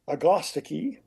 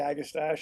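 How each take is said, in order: First: The name is said the British way. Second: The name is said the plain, everyday way. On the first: It makes you sound like you know what you're talking about. "you pronounce it like the British" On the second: It is the easier everyday way to say it. "we say Agastache. It's just easier"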